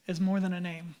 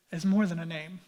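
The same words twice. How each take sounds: The two takes are said the same way.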